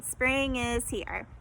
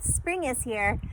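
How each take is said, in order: First: Spring is here, slow with each syllable apart; counting syllables slowly. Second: Said in the usual way. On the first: Shown as a demonstration. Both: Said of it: "That one was only three".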